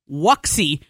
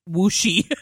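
First: The x is not sounded as sh. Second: The x is sounded as sh. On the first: The speaker calls it wrong. "I was mispronouncing the name of their company as Wuxi" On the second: The speaker calls it right. "an X is SH"

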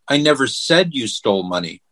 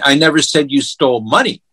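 First: The stress is on "said". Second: The stress is on "money".

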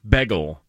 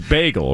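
First: The first vowel sounds like the vowel in 'beg'. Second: The first vowel sounds like the vowel in 'bay'. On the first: "So you say it like B-E-G" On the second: "it's like B-A-Y"

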